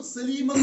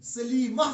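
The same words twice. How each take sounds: First: सलीमतुन with the final -tun sounded; सलीमतुन said loud with its -tun; full -tun ending. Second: सलीमा ending in a breathed h, no -tun; slow सलीमा closing on -ah; pausal h ending. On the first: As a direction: pronounce the whole ending of सलीमतुन. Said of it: "सलीमतुन नहीं कहते हैं". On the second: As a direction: stop on सलीमा, round ta turned to h. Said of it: "सलीमा कहते हैं". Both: Shown as a demonstration.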